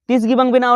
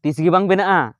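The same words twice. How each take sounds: First: ᱵᱮᱱᱟᱜᱼᱟ stressed and pitched higher; emphatic repeat. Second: Said in the usual way. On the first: Shown as a demonstration. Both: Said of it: "ᱚᱜ ᱵᱮᱱᱟᱜᱼᱟ?".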